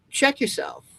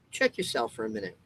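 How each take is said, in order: First: Much higher, punchy Check yourself; higher mock warning; sharp call-out. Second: Said in the usual way. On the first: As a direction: bark Check yourself up high as a jolt. Calling out the listener.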